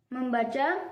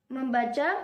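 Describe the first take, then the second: The two takes are said the same way.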